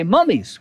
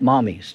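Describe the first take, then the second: First: "mummies" with the short uh vowel, MUH-meez. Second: "mommies" with the open ah vowel, MAH-meez. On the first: Preacher telling the congregation he means mummies, said clearly. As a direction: say "mummies" like the wrapped Egyptian dead. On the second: Preacher joking to the congregation that he doesn't mean mommies, said clearly. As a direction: say "mommies" as in mothers, to set it apart. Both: Shown as a demonstration. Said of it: "Not mommies".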